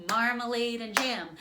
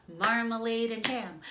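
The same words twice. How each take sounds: The two takes are said the same way.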